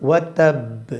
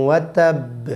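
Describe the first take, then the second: Both takes have the same delivery.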